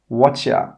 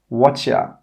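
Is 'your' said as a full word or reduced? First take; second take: Reduced; Reduced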